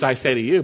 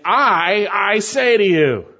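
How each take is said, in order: First: Said in the usual way. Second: "I" said twice, both strongly stressed; a forceful standalone "I", then stress "I" once more; emphatic I. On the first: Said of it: "You could say". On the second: Shown as a demonstration. Preacher showing what Jesus meant, emphatic doubled "I". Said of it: "but he's saying".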